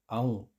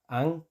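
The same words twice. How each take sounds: First: Aung with au before ng; teacher repeats the au take; Icelandic au. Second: Ang said with a plain a; teacher repeats the plain take. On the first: Au vowel. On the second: Plain a. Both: Shown as a demonstration. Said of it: "cambia a aung".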